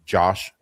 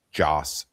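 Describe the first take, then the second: First: "Josh" said with a sh sound; "Josh" with a slushy sh instead of s; mistaken lisp. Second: "Joss" said with a clear s; "Joss" ending on a crisp s; corrected name. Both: Real, not acted. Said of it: "Joss, not Josh".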